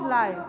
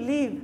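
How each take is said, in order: First: The vowel is a diphthong, as in 'five'. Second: The vowel is short, as in 'give'. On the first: It means broadcast as it happens. "কোনো খেলা match সরাসরি দেখছি লাইভ" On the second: It is the verb meaning to reside. "যখন verb হবে লিভ"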